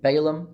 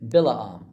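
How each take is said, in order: First: "Balaam" said BAY-lum, stress up front; common English pronunciation. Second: "Bilaam" said bil-ah-AHM, ending in a long ah; Hebrew-style pronunciation. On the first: Teacher giving the popular alternative, "Balaam" as BAY-lum. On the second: Teacher naming the prophet for viewers, "Bilaam" as bil-ah-AHM. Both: Shown as a demonstration. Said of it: "as a lot of people pronounce it".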